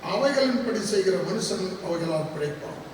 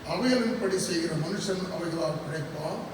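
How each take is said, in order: No difference in how they are said.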